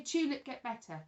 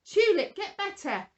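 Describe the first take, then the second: First: Said in the usual way. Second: "Tulip, get better" said loud and commanding, a bit higher; big grown-up voice. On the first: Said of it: "Will you say". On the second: Shown as a demonstration. Presenter commanding the dead tulip to heal, loud grown-up voice. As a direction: boom it out like a bossy grown-up ordering the tulip. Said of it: "in a very big grown-up voice".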